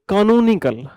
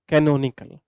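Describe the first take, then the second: First: The word begins with 'kaa-noo'. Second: The word begins with 'kay-no'. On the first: "इसको पढ़ो कानूनिकल" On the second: "इसको बोलते हैं कैनोनिकल"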